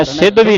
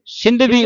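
First: ਸਿੰਧਵੀ with e and no nasal; wrong "sedhvi". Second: ਸਿੰਧਵੀ with short i and sounded n; nasal sin. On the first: Teacher shows the misreading, ਸਿੰਧਵੀ as "sedhvi". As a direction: drop the n in ਸਿੰਧਵੀ, saying "sedhvi". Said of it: "ਸਿੰਧਵੀ ਨਹੀਂ ਪੜ੍ਹਨਾ". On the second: Teacher gives the correct reading, ਸਿੰਧਵੀ as "sindhvi". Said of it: "ਸਿੰਧਵੀ ਉਚਾਰਨ ਕਰਨਾ". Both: Shown as a demonstration.

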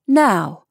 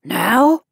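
First: "Now" as a firm statement, without the questioning rise; firm order. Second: "Now" as a loud question, rising steeply; reluctant question. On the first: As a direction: settle it with a decisive "Now". Senior repeats the order firmly. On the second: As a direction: query the order with a rising "Now". Maggie questions the senior's order. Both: A narrator's reading.

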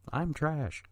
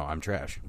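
First: "I'm trash" laughed out, pitched higher; laughing. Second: Said in the usual way. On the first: Real, not acted. Podcaster laughing at himself over his taste, laughing. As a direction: giggle through "I'm trash" at yourself.

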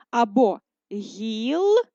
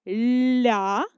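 First: Гілля drawn out slowly, split the other way, louder; slow second split. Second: Гілля broken into syllables, louder; first split. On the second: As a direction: show гілля split one way. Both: Shown as a demonstration. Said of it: "як можна перенести це слово".

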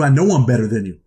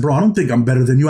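First: I know I'm better than you, with know punched and falling; stress on know. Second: Don't think I'm better than you, with don't lifted and hit hard; stress on don't. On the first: To the inmate who called him arrogant, stressing know. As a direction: land hard on know, flat and sure. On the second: At the inmate who called him arrogant, stressing don't. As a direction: snap it out fast, leaning on don't. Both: Retold or imitated. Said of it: "I flipped out on the dude. I said".

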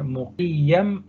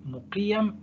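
First: مقيم stretched very slowly, the ي drawn out; struggling pronunciation. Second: مقيم squeezed out much higher and much softer; a strained, thin second attempt at مقيم; strained retry. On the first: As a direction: labour slowly through مقيم. (نطق بطيء متعثر لكلمة مقيم) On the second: (محاولة مجهدة بصوت أعلى وأخفت لكلمة مقيم) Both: Shown as a demonstration. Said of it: "لا صعب قوي".

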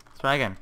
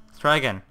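Both takes have the same delivery.

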